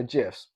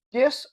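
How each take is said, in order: First: "gifs" opening on a j sound; soft G in gifs. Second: "gifs" opening on a hard g sound. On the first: Host weighing two ways of saying it, "gifs" with soft G. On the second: Host weighing two ways of saying it, "gifs" with hard G. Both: Shown as a demonstration. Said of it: "gifs or gifs? Who knows?".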